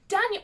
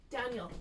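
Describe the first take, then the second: First: Daniel blurted high and loud as the name comes back; Daniel popped out with a jolt of remembering; sudden recall. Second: Said in the usual way. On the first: Real, not acted. Remembering the stable boy's name, suddenly blurted. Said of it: "oh, his name is Daniel". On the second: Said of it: "Hang on".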